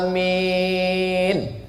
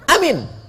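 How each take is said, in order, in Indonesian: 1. Kedua vokalnya panjang. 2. Kedua vokalnya pendek.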